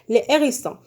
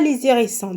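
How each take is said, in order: First: No linking sound joins the two words. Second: A linking z sound joins the two words. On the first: The speaker calls it right. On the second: The speaker calls it wrong.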